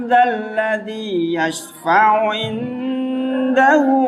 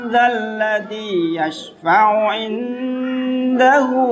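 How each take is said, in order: Both takes have the same delivery.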